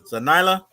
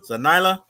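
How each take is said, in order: First: The Y is said with an 'eye' sound. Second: The same.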